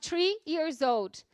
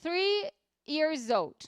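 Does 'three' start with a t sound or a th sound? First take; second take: t sound; th sound. First: Three starts with a hard t sound. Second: Three starts with a soft th sound. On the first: It sounds like a different word, tree. The speaker calls it wrong. "se eu não produzir esse som" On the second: The speaker is three years old. The speaker calls it right. "eu diria com T H"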